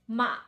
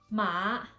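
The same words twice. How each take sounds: First: The pitch drops down quickly. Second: The pitch goes up and then down. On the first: "we have to go down quickly" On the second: "we go up and then down"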